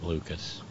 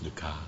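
First: The name ends with a clear s sound. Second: The name ends without any s sound. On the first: "I've been anglicizing it" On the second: "Suspect it's"

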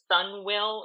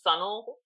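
First: It is said as two separate words. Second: It is contracted into one word, sun'll. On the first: The speaker calls it wrong. "It just breaks it up in a unpleasant way" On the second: The speaker calls it right. "the much more satisfying way that sunnel comes off of the tongue"

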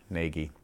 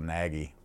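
First: The name rhymes with the word Navy. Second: The first vowel is a short A sound. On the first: The speaker calls it right. "it is Nagy, like Navy" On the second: The speaker calls it wrong. "some people sometimes pronounce the A short vowel"

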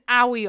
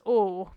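First: The word is said with two syllables. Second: The word is said with one syllable. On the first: The speaker calls it wrong. "a saying now that I've said wrong before" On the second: The speaker calls it right. "when I say owie, I mean A-W-E, which is awe"

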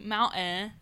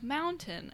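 First: The middle t sound is dropped. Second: The middle t sound is clearly pronounced. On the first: The speaker calls it wrong. "They say mountain instead of" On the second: The speaker calls it right. "instead of mountain"

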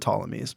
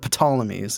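First: The opening P sound is silent. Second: The opening P sound is pronounced. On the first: The speaker calls it right. "with a silent P" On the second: The speaker calls it wrong. "it's not the Ptolemies"

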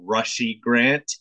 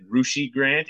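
First: The first syllable sounds like 'rush'. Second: The first syllable does not sound like 'rush'. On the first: The speaker calls it right. "It's pronounced Rushy. Like Rush" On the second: The speaker calls it wrong. "I was pronouncing it Rushy Grant"

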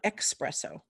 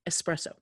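First: It begins with an 'ex' sound. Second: It begins with a plain 'es' sound. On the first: The speaker calls it wrong. "it's not espresso" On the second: The speaker calls it right. "no. Espresso"

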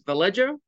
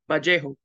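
First: The name is pronounced with English sounds. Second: The name is pronounced with Spanish sounds. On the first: "The English way is Vallejo" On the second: "the Spanish way is Vallejo"

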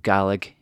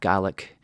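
First: The word is said the Scottish way. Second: The word is said the Scottish way.

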